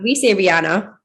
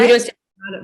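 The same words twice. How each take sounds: First: Long open AH in the middle of "Rihanna"; usual local pronunciation. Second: Flat short A in the middle of "Rihanna"; rejected pronunciation. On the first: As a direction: say "Rihanna" with a broad AH. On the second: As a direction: say "Rihanna" with ANN in it. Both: Shown as a demonstration.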